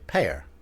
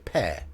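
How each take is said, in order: First: It is said in an American accent. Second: It is said in a British accent. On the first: "in American you'd say pear, but it sounds like fate" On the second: "in British English, we'd say pear"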